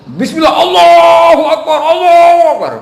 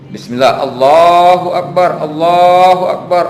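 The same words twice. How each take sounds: First: It is shouted very loudly and forcefully. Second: It is said at a moderate, normal volume.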